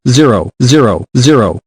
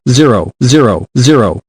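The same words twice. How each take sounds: The two takes are said the same way.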